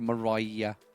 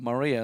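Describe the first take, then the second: First: The middle syllable sounds like 'rye'. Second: The middle syllable sounds like 'ree'. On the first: The speaker calls it right. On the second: The speaker calls it wrong.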